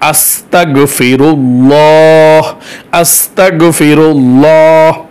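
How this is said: A new breath is taken before each one. The speaker calls it right. "এক শ্বাসে একবার"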